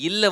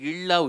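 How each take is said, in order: First: The l is a plain dental-alveolar l. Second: The l is a retroflex l, tongue curled back. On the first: The speaker calls it right. "அந்த இல்ல" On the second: The speaker calls it wrong. "தவறுதலா இள்ளா உச்சரிச்சிடுற"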